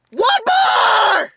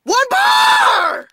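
First: Shouted, stretched in outrage; ranting. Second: Higher, wilder shout, fully losing it; ranting scream. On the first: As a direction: yell it at the phone. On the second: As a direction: scream it even higher the second time. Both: Real, not acted. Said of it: "But I'm gonna rant".

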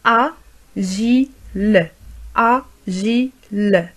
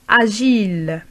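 First: "Agile" split slowly as a, gi, le; very slow "Agile", pause after each syllable. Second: Said in the usual way. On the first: Shown as a demonstration. Teacher modelling for learners, syllable by syllable "Agile".

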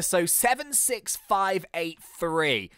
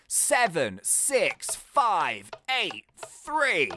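First: Said in the usual way. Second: Seven six five eight three said very slowly, each number apart; slow spelled out code. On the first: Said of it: "reading out the code". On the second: Shown as a demonstration. Gamer reading the safe code back, slow and careful. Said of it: "repeating code slowly".

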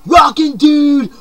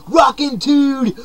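First: High, loud, slow Rockin' dude with a punch on rockin'; shouted catchphrase. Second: Eased-off catchphrase. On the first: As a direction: belt out Rockin' dude like a rock cry. First take, shouted. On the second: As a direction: let Rockin' dude roll out slow and lighter. Second take, calmer. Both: Acted.

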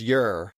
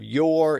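First: "your" said as "yer"; dialect vowel. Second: Said in the usual way. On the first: Shown as a demonstration. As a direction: reduce "your" to an r-coloured "yer". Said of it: "it was your". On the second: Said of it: "instead of your".

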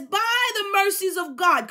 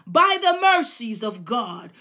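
First: Higher, pleading cry of the apostle. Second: Said in the usual way. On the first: Retold or imitated. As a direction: beg them, by the mercies of God. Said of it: "So he's pleading and he says". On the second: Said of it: "He says, the apostle speaking".

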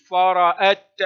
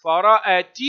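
First: Loud فرأت stopped on a bare t; ta at a pause. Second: Loud فرأت ending in "ti"; ta with its vowel. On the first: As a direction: end فرأت on a crisp t, no vowel. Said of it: "وتاء عند الوقف". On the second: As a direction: sound the final ta of فرأت as "ti". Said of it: "تنطق تاء في الحركة". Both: Shown as a demonstration.

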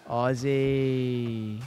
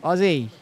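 First: Slow, drawn-out mock Australian "Aussie"; mock Aussie accent. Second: "Aussie" louder and higher, plain American vowels; plain shout. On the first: Streamer tries "Aussie" in a mock Australian accent. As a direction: stretch "Aussie" in a hammed-up Australian vowel. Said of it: "Your fucking Aussie accent". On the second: Pretend. Streamer retries "Aussie" loud in own voice. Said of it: "Not good".

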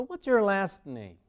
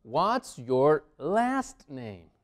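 First: Higher, less drawn out, words linked; slightly slow but connected teacher repeat; connected model question. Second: Very slow, each word separate; drawn-out, deliberate model question; slow teaching model. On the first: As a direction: repeat it as one flowing question. Teacher repeats question more fluently. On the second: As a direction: space out the words for learners. Teacher models new question slowly. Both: Shown as a demonstration.

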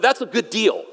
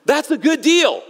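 First: Said in the usual way. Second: "That's a good deal" higher and punchy; "good deal" pitched up, falling at the end; emphatic repeat. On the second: Real, not acted. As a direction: drive home "good deal" with a high, emphatic swing.

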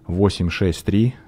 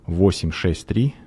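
Both takes have the same delivery.

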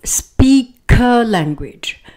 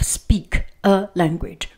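First: "speak a language" with a strong liaison; linked words. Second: "speak" and "a" kept apart in "speak a language"; no liaison between "speak" and "a"; separated words. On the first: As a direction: carry the k of "speak" onto "a". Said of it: "we do not have that liaison". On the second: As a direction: stop after "speak", then start "a" afresh. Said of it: "instead of". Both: Shown as a demonstration.

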